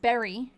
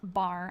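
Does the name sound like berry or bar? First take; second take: berry; bar. First: The name sounds like berry. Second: The name sounds like bar. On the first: The speaker calls it right. "Berry, not Bar" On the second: The speaker calls it wrong. "not Bar"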